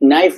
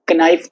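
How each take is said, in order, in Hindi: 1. इस शब्द की शुरुआत n ध्वनि से होती है। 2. इस शब्द की शुरुआत k ध्वनि से होती है। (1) "नाइफ बोलते हैं" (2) "कनाइफ तो नहीं बोलते"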